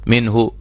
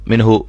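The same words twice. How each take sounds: No difference in how they are said.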